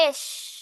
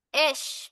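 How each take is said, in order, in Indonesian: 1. Frasa ini disingkat menjadi satu suku kata, esh. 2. Frasa ini disingkat menjadi satu suku kata, esh.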